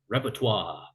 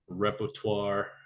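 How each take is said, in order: First: It is said with an exaggerated French-style pronunciation. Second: It is said with a plain English pronunciation.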